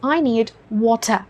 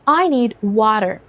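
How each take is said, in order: First: It is spoken in a British accent. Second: It is spoken in an American accent. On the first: "दूसरा वाटर UK style या rhythm में बोला गया है" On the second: "पहले वाला वाटर US style या rhythm में बोला गया है"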